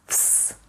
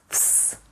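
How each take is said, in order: First: The cluster is voiceless, like f plus s. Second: The same.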